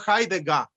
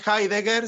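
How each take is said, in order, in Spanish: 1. La última sílaba termina en una vocal parecida a la a. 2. La última sílaba termina en una r pronunciada. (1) "sino Heidegger" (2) "no es Heidegger"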